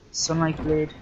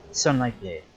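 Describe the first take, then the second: First: "Sunlight Blade?" asked with a rising tune; unsure, pitch lifts on "Sunlight Blade?"; questioning rise. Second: "Sunlight Blade." stated with a falling tune; confident statement. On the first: Unsure of the item name. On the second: Confirms the item name. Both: Real, not acted.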